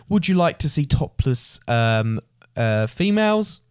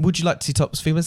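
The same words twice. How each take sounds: First: Slow, awkward street tout, voice rising on females; hesitant club rep pitch. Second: Fast, rattled-off tout line; quick club rep pitch. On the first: A lightly voiced club rep hesitating to tourists. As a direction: stall before the word females. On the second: A lightly voiced tout rattling off his usual pitch to tourists. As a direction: fire off the pitch like a routine. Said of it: "That happened a lot". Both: Retold or imitated.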